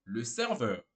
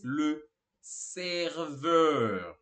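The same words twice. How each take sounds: First: Said in the usual way. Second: Serveur stretched long on both syllables; slow, held syllables; drawn-out pronunciation demo. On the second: Shown as a demonstration. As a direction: model serveur slowly and firmly for learners. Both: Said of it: "Mais uma vez".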